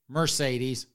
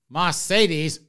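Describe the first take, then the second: First: It is said in a standard US accent. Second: It is said in a Southern US accent.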